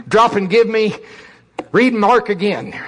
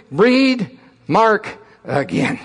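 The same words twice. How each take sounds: First: Loud drill sergeant bark. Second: Drill sergeant. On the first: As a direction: bark the order, drill instructor. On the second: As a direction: spell it out like a drill instructor. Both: Retold or imitated. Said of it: "drill instructor".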